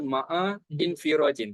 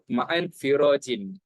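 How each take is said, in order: First: An extra i vowel is sounded before nfirajin. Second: The n links straight into firajin, no extra vowel. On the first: The speaker calls it wrong. "Kita tak boleh baca ma'a infirajin, tak boleh" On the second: The speaker calls it right. "Contoh kita sebut ma'an firajin"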